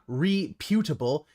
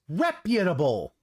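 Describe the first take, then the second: First: The p sound opens the second syllable. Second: The p sound closes the first syllable. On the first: The speaker calls it wrong. "not reputable" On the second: The speaker calls it right. "The P is part of the first syllable"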